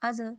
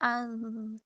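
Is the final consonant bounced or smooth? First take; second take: bounced; smooth. First: The final consonant is released with a bouncing jolt. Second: The final consonant is held gently without a bounce. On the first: The speaker calls it wrong. "अज़ ऐसे नहीं करना" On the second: The speaker calls it right. "आराम से"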